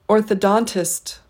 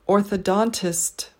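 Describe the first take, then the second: No difference in how they are said.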